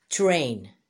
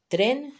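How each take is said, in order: First: 'train' said slowly as the English word; English pronunciation. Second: Said in the usual way. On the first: Shown as a demonstration. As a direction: model English 'train' for learners. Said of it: "se dice en inglés train". ('train' pronunciado en inglés, despacio) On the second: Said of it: "Tren se dice en inglés train".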